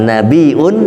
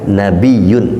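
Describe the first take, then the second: First: A glottal stop comes before the ending. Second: A y glide comes before the ending. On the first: The word comes from the root meaning news. "Kalau nabiun berarti pakai hamzah" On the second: The word comes from the root meaning elevation. "kalau nabiyun berarti enggak pakai hamzah"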